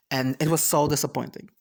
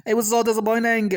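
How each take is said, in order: First: Said in the usual way. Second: Higher and louder, leaning on so; so stretched and stressed, higher; emphatic repeat. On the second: Shown as a demonstration. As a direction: punch the word so. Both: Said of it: "repeated louder".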